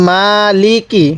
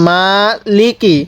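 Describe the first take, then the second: No difference in how they are said.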